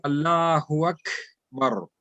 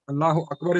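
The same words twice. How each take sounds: First: Slow "Akbar" with a flowing airy K before "bar"; hams on kaf. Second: Said in the usual way. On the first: Shown as a demonstration. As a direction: stretch "Allahu", release breath on the K of "Akbar". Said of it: "a little bit flowing". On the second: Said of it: "is not Allahu Akbar".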